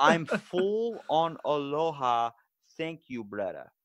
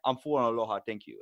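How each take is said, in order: First: Put-on slow, drawn-out Hawaiian Pidgin accent. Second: Put-on quick, light Hawaiian Pidgin accent. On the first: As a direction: stretch it out louder in Hawaiian Pidgin. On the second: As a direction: answer in a hint of Hawaiian Pidgin. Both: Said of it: "they have an accent called Pidgin".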